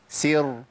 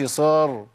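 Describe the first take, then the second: First: The s sound is light and thin. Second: The s sound is heavy and emphatic. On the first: The speaker calls it right. "سي سر سر" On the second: The speaker calls it wrong. "ما قلتش صار صا ... ده انا املت الحركه"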